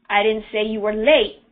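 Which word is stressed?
late. The stress is on "late".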